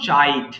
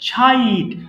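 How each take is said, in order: First: The first sound has no breathy puff. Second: The first sound has a breathy puff. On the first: The speaker calls it wrong. "Not চাইট" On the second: The speaker calls it right. "এর উচ্চারণ করব ছাইট"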